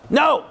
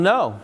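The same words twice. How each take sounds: First: Shouted refusal. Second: Said in the usual way. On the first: Acted. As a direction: bark the No! to shut it down. Parent refusing teen louder.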